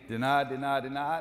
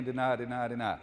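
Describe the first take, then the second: First: Mock defender yelling deny to teammates; called-out defensive call. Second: Said in the usual way. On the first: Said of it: "Cavante's saying". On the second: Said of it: "Dee Dee's saying".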